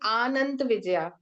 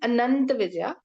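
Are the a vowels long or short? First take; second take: long; short. First: The a vowels are drawn out long. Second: The a vowels are kept short. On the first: The speaker calls it wrong. "we are not saying" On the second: The speaker calls it right. "We are saying"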